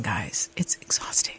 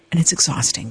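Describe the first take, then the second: First: It's exhausting in a breathy whisper. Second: Said in the usual way. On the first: Real, not acted. Aside to viewers, drained.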